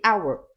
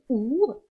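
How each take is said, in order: First: The word is said the standard way. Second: The word is said the common learner way. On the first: The speaker calls it right. "Apprenez à bien prononcer correctement, c'est our" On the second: The speaker calls it wrong. "souvent que vous me prononcez comme our, ça n'existe pas"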